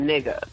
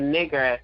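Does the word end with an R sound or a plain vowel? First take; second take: vowel; R sound. First: The word ends with a plain vowel. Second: The word ends with an R sound. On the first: This form is felt as a different, familiar term. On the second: This form is heard as the slur.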